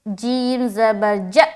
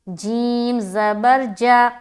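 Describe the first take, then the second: First: The short vowel is cut off with a jerk. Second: The short vowel is said quickly but smoothly. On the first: The speaker calls it wrong. "अब कोई पढ़े ... तो गलत हो जाएगा।" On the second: The speaker calls it right. "तो जब हम अदा करेंगे तो हम पढ़ेंगे"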